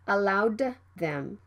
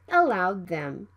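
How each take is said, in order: First: The D is fully released. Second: The D is held without release. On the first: The speaker calls it wrong. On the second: The speaker calls it right. "Stop the D sound and move to the T H sound right away"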